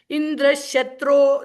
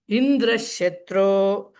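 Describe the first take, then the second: First: The high pitch falls on the last syllable. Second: The high pitch falls on the first syllable. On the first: Indra will be killed. "if the last syllable is is Udatta" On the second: Indra is the killer. "says Indra at a higher pitch"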